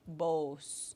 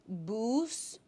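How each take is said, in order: First: The vowel sounds like the o in gross. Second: The vowel sounds like the oo in moose. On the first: This is the local territory's pronunciation. "It's like the O in gross" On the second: This is the northern river tribes' pronunciation. "So the double U is like the oo in moose"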